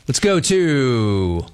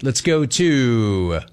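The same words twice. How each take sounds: First: Slow sports-radio host stretch; drawn-out host call. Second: Slow host stretch on go; drawn-out host call. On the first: Host drawing out the call to the next city. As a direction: stretch it out like announcing the next caller. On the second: Host drawing out the call to the next caller. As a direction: drag the words out before the next city. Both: Acted.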